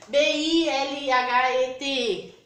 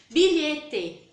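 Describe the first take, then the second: First: "B I L H E T E" letra por letra, devagar; soletrado. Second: Said in the usual way. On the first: Shown as a demonstration. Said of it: "a gente não fala assim". (professora mostra como não se fala a palavra) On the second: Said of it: "Nós pronunciamos bilhete".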